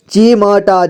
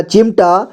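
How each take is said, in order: First: चिमटा as चि-म-टा; syllable by syllable. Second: Said in the usual way. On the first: Shown as a demonstration. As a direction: sound out चिमटा with "ma" on its own. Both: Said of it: "एक ही बार में पढ़ेंगे".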